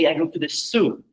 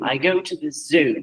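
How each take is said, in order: First: Zoo begins with a hissing s sound. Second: Zoo begins with a buzzing z sound.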